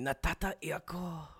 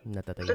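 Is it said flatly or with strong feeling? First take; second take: strong feeling; flatly. First: It is said with strong, exaggerated feeling. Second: It is said plainly, without much feeling.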